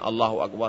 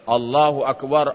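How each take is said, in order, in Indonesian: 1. Diucapkan pelan, dengan volume rendah. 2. Diucapkan keras, dengan volume tinggi. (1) "Kalau hanya Allahu Akbar, Allahu Akbar, tak mungkin dengar" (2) "Pasti suara mengucapkannya Allahu Akbar, Allahu Akbar, barulah didengar bapak di luar"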